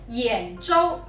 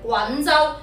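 First: The first syllable is pronounced yan. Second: The first syllable is pronounced gun. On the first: The speaker calls it right. "普通話正確讀音係揚州" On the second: The speaker calls it wrong. "好多人將佢讀成滾州"

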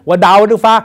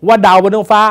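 Both takes have the same delivery.

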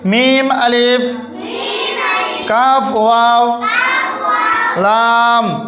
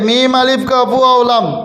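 First: The letter names are broken into small separate pieces. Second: The letter names are run together in one go. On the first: The speaker calls it right. "ছোট ছোট করি" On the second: The speaker calls it wrong. "প্রথমেই একবারে পড়িয়ে যায়"

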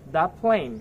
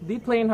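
First: The word 'the' is pronounced 'thuh'. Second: The word 'the' is pronounced 'thee'. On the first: The speaker calls it right. "কারণ plane এটা কি একটা p consonant sound দিয়ে শুরু হয়েছে" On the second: The speaker calls it wrong. "The plane হবে না"

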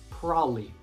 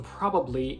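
First: The middle 'ba' is dropped, leaving two syllables. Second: All three syllables are pronounced, including the middle 'ba'.

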